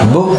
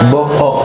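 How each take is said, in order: First: It is read with its usual spoken pronunciation. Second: It is read following every written letter. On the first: The speaker calls it right. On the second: The speaker calls it wrong.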